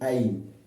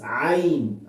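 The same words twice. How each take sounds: First: It starts with a plain glottal catch, like hamza. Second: It starts with a throaty sound, unlike hamza. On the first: The speaker calls it wrong. "it should not sound like ayin, like uh, alif or hamza" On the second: The speaker calls it right. "It's ayin"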